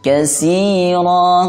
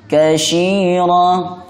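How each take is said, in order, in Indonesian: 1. Huruf tengahnya bunyi s biasa. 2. Huruf tengahnya bunyi sh. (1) "jangan dibaca sin" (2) "atau dibaca shin"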